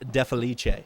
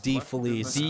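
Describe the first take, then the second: First: The surname is said the traditional Italian way. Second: The surname is said the common anglicized way. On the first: "my Italian ancestors will tell you it is" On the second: "the typical pronunciation is"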